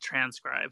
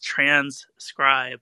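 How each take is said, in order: First: The middle s sound is single, transcribe. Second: The middle s sound is doubled, trans-scribe. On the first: The speaker calls it wrong. "It's not transcribe" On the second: The speaker calls it right. "So there's two S's in that. It's transcribe"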